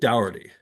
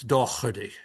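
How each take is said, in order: First: The middle consonant is softened, not hard. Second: The name is said in an Irish accent. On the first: "the English way, which is to soften it" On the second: "if you have an Irish accent, it's Doherty"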